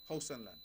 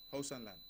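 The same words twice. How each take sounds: The two takes are said the same way.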